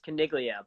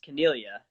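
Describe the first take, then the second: First: The name is said with American pronunciation. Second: The name is said with Italian pronunciation. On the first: "American pronunciation" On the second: "Italian pronunciation"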